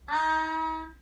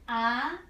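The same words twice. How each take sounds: First: The pitch stays high and level. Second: The pitch rises from middle to high. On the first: "This one" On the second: "Second tone. ... Like you have a question"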